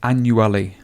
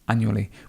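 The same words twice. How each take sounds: First: Every syllable of the word is fully pronounced. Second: The word is said in a relaxed, reduced way. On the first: The speaker calls it wrong. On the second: The speaker calls it right.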